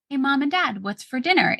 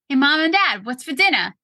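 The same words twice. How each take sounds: First: It is said with the r sounds pronounced. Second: It is said in a Brooklyn accent, r-less.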